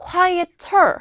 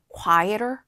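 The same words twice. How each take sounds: First: The t is a clear, crisp t sound. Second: The t is a soft flap, like d. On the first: "quieter 해도 틀리진 않아요" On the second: "미국식으로 발음하는 편인데 T, 그 water, water의 water처럼 발음이 약간 음, 흘려지는"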